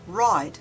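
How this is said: The word is said in a General American accent. "In general American English"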